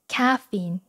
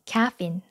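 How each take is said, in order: First: It is said with English pronunciation. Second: It is said with English pronunciation.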